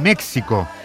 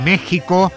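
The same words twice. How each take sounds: First: The middle consonant is a ks sound. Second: The middle consonant is a throaty h sound. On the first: The speaker calls it wrong. "Se escribe con X" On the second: The speaker calls it right. "pero se pronuncia con J"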